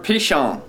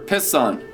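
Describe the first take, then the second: First: The name is said the Hebrew way. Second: The name is said the usual English way.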